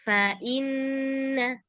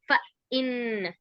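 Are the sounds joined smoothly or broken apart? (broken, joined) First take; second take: joined; broken. First: The sounds are joined smoothly without breaks. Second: The sounds are broken apart with small pauses. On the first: The speaker calls it right. "tapi fa inna. Mm-mm, disambung ya, jangan dijeda-jeda" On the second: The speaker calls it wrong. "bukan fa inna"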